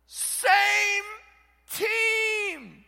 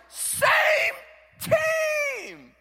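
First: High, loud shout; Paul yelling. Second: Very high, loud coach's shout; coach yelling. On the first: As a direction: yell it to the divided church. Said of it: "This is Paul yelling". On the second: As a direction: yell across the field at the kids. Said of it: "the coach will yell". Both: Retold or imitated.

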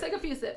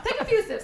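First: Said in the usual way. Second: Said through a laugh, higher. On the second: Real, not acted. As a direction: laugh out the words. Laughing at co-host sipping.

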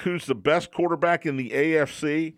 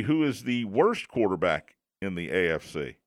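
First: Said in the usual way. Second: Worst leaned on, falling tune; stress on worst. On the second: Shown as a demonstration. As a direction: punch the word worst. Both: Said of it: "the question might need to be".

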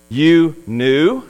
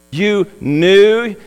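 First: Master questions the servant with sarcasm; a doubting, mocking "You knew?" with the rise on "knew"; sarcastic. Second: "knew" leaned on in scornful disbelief; a mocking "You knew?" with "knew" pressed hard; sarcastic. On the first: The master scoffs at the servant's excuse in a sarcastic tone. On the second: The master throws the servant's words back at him sarcastically. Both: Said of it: "you can almost hear the sarcasm in his tone".

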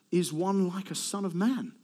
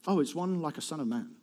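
First: Slow reveal of "one like a son of man"; measured reveal. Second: Quieter, acted dawning realization; understated realization. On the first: Acted. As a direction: let "one like a son of man" unfold slowly and deliberately. First take, the grand reveal. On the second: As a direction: let it drop into a modest discovery. Second take, acted surprise at answer.

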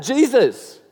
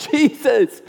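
First: Raised, higher call across a crowd. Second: Higher, louder yell than the first call. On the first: Blind Bartimaeus calling to Jesus from the roadside, raised call. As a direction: call his name to get attention. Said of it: "he calls out". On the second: Bartimaeus yelling to Jesus despite the crowd, louder yell. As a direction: shout it over the crowd, refusing to be hushed. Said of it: "He yells out all the louder". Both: Retold or imitated.

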